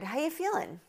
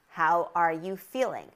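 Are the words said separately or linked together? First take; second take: linked; separate. First: The words are reduced and linked together. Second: Each word is said separately and clearly. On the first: The speaker calls it right. "with the connected speech and the linking" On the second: The speaker calls it wrong. "I'm saying it like this so that you can really hear what words are in this question"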